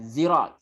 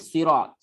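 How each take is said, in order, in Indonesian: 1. Kata ini diawali dengan bunyi z. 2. Kata ini diawali dengan bunyi s emfatik. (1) "Dan juga zai" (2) "tapi dia dia tukar dengan sad"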